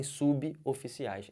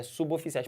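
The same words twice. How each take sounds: First: SUBOFICIAIS broken as su-bi, oficiais; wrong pronunciation. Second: SUBOFICIAIS run together as su-bo-ficiais; linked pronunciation. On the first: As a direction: add an I after the B in suboficiais, then break. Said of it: "Não falem suboficiais". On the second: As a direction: join the B of suboficiais straight to the O. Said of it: "É suboficiais". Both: Shown as a demonstration.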